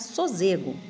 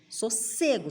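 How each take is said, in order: First: The middle consonant is a buzzing Z sound. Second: The middle consonant is a hissing S sound. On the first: The speaker calls it wrong. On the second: The speaker calls it right.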